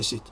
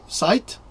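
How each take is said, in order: First: The vowel is short, like in 'bit'. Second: The vowel is long, like in 'bite'. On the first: The speaker calls it right. "non c'est cit" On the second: The speaker calls it wrong. "site, L, non, non c'est cit"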